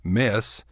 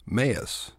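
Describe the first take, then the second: First: Said in the usual way. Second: "mess" stretched with a glide, "meh-uss"; Texas diphthong. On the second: Shown as a demonstration. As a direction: drawl "mess" as two syllables. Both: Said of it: "This is what I call the Texas diphthong".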